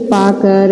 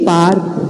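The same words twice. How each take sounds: First: पा कर split in two with a break; wrong pronunciation. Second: पार्क said as one word, र half after पा; correct pronunciation. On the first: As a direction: read पा कर apart the wrong way. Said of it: "इसको हम ऐसे नहीं बोलेंगे". (गलत: पा कर अलग-अलग) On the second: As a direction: join पार्क into one syllable. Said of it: "इस रेफ की मात्रा को हम पा के बाद बोलेंगे". (सही उच्चारण: पार्क) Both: Shown as a demonstration.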